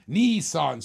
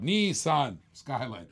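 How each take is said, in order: First: Said in the usual way. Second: Slow, deliberate "Nissan Skyline"; careful, drawn-out "Nissan" for a friend who cares; careful pronunciation. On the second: Shown as a demonstration. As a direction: say "Nissan Skyline" slowly, every syllable clear, to get it right. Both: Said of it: "I gotta say it right for Rob".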